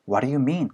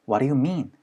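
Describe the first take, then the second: Both takes have the same delivery.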